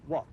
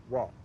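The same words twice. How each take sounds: First: "what" with the final t sounded; crisp final t on "what"; standard English pronunciation. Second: "what" with the final t dropped to a glottal stop; Cockney "wha'", no t on "what"; Cockney pronunciation. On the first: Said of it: "In Cockney, we say what". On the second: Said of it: "In Cockney". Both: Shown as a demonstration.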